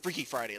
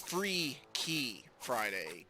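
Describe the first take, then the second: First: The name is said quickly, words run together. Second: The name is said slowly, words kept separate.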